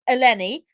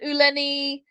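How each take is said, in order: First: The name begins with an 'e' vowel. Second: The name begins with an 'oo' sound. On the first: This is the name's proper form. The speaker calls it right. "once you know how it's pronounced, it's quite easy" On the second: Others got the name wrong. The speaker calls it wrong. "her name described um, by news companies in every kind of way"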